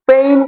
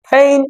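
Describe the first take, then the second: First: The p is plain, without a puff of air. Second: The p is aspirated, with a puff of air. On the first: The speaker calls it wrong. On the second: The speaker calls it right.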